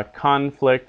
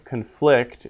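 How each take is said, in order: First: CONflict, stressed on the first syllable; noun stress. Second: ConFLICT, stressed on the second syllable; verb stress. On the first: Teacher showing the noun, conflict with first-syllable stress. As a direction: punch the front of conflict. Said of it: "conflict is the noun". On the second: Teacher showing the verb, conflict with second-syllable stress. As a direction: punch the end of conflict. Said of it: "conflict is the verb". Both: Shown as a demonstration.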